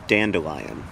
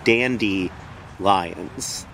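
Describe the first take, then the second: First: The middle syllable has an 'uh' sound. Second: The middle syllable has an 'ee' sound. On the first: The speaker calls it right. "but with a duh, dandelion" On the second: The speaker calls it wrong. "as if you think that it is actually dandy lions, like fancy lions"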